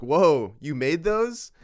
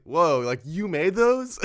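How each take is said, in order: First: Put-on loud, high childlike whoa, you made those; amazed question. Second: High, loud, wide-eyed whoa; childish wonder. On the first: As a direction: gush over a kid's craft, louder and higher. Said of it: "an actual question". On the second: Retold or imitated. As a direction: gush like a kid seeing magic, higher and louder. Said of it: "came off a little childish".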